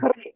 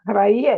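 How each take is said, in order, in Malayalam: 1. ഈ വാക്ക് അവസാനിക്കുന്നത് നീണ്ട 'ee' സ്വരാക്ഷരത്തിലാണ്. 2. ഈ വാക്ക് അവസാനിക്കുന്നത് 'eye' സ്വരാക്ഷര ശബ്ദത്തിലാണ്. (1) "ശരിക്ക് ഹ്രീ എന്നാണ്" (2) "ഹ്രൈ അല്ല"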